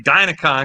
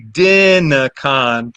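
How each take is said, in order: First: The first syllable has the vowel of 'dine'. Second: The first syllable has the vowel of 'dig'. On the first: It brings to mind dinosaurs or dynamos. "it makes you think about dinosaurs or dynamos" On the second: It follows the first syllables of the full name. "since it's digital naturalism, it should be Dinacon"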